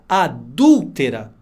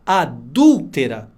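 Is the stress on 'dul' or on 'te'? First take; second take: dul; dul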